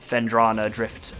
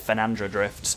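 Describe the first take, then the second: First: The name is said as 'fen-DRAH-na'. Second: The name is said as 'fe-NAN-dra'. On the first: The speaker calls it right. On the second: The speaker calls it wrong.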